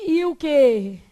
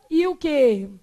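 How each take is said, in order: Both takes have the same delivery.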